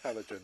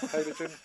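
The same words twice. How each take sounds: First: Halogen said HAL-o-jen, falling; pronunciation. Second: Halogen said HAY-lo-jen; pronunciation. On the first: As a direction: halogen with short A, quieter. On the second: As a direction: Halogen with long A sound. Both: Shown as a demonstration. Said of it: "we're having a tomato tomato moment".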